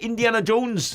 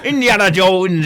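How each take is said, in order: First: It is said in a rustic farmer accent. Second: It is said in a growling pirate accent. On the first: "I was about to do a farmer accent then" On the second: "I'm turned to a pirate now"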